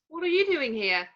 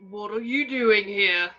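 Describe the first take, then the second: First: It is spoken in a normal pitched voice. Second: It is spoken in a deliberately lowered voice. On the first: The speaker's own identity shows through. The speaker calls it wrong. "confused by Ron's voice" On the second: The speaker is disguising himself as someone else. The speaker calls it right. "clears his throat and speaks in a lower voice"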